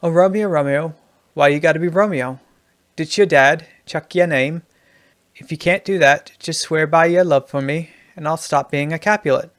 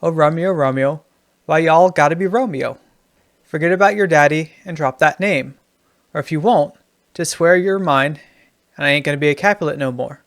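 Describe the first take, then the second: First: Lightly put-on Australian lilt; Australian accent. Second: Lightly put-on Southern twang, emphatic; Southern accent. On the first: Writing teacher reading Juliet rewritten as an Australian, light Australian accent. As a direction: recite it with a hint of Aussie. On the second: Writing teacher reading Juliet rewritten as a Southerner, mild Southern accent. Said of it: "In the Southern". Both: Shown as a demonstration.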